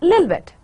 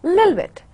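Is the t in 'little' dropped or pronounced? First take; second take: dropped; dropped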